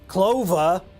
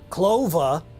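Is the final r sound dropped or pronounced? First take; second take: dropped; dropped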